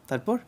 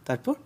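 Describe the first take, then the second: The two takes are said the same way.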